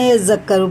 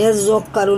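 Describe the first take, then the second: First: The middle consonant sounds light and thin. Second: The middle consonant sounds heavy and thick. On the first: The speaker calls it right. "ये बारीक है, यज़क्करू पढ़ेंगे" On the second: The speaker calls it wrong. "यज़क्करू नहीं पढ़ेंगे"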